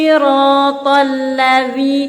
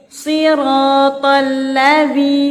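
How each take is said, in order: The two takes are said the same way.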